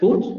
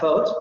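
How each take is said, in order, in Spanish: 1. La vocal es una vocal central redondeada cerrada. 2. La vocal es una vocal posterior redondeada media abierta. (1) "En el inglés escocés nos dice, estas dos palabras se van a pronunciar con este fonema" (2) "la primera palabra se va a pronunciar con el vocal, con la vocal posterior media abierta, labializada"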